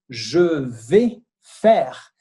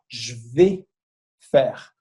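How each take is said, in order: First: Every syllable is pronounced in full. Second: The first vowel is dropped and the words run together. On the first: "quando você tem esse je vais faire" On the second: "falado de forma mais natural, a gente fala"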